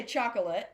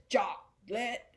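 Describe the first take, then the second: First: "chocolate" as choc-uh-lit, light middle vowel; three-syllable pronunciation. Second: "chocolate" as two separate beats, choc-lit; two-syllable pronunciation. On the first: Teacher showing how most people say it, "chocolate" as choc-uh-lit. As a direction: keep a little o inside "chocolate": choc-uh-lit. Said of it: "But most people say". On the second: Teacher showing how nobody says it, "chocolate" as choc-lit. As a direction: split "chocolate" into CHOC and LIT, middle o dropped. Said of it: "nobody says chocolate". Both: Shown as a demonstration.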